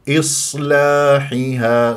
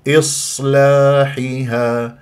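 No difference in how they are said.

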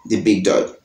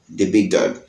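The two takes are said the same way.

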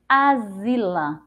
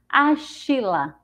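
First: The middle consonant is a z sound. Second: The middle consonant is an sh sound. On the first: "se a gente for pronunciar com o som de Z" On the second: "se a gente for usar o som do X com é, é, C H"

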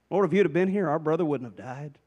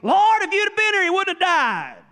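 First: It is said in a gentle tone. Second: It is said in a confrontational tone.

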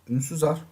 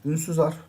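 The two takes are said the same way.

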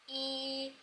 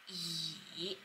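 First: The pitch stays high and level. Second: The pitch dips low then rises. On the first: "第一声 goes like e" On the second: "Third tone goes like e"

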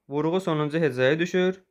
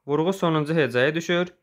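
No difference in how they are said.

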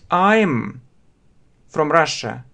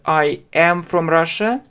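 First: I and am merge into one syllable. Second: I and am are said as separate words. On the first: The speaker calls it right. "нужно говорить" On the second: The speaker calls it wrong. "вы думаете, что вы прям так услышите"

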